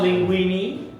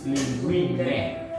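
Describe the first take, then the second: First: The final vowel is a long ee sound. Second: The final vowel is an open eh sound. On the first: The speaker calls it wrong. "It's not linguini" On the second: The speaker calls it right. "it's linguine"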